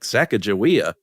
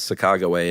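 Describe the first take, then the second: First: The name ends with a 'wee-uh' sound. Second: The name ends with a single 'way' sound. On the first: This is how Americans say the name. "Americans were like" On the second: This is how the name is said natively. "the native pronunciation is"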